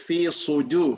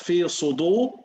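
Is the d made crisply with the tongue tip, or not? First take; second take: crisp; not crisp. First: The d sound is crisp from the tongue tip. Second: The d sound is not crisp at the tongue tip. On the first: The speaker calls it right. "It's dal... It's from the tip of the tongue" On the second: The speaker calls it wrong. "not fi sudu"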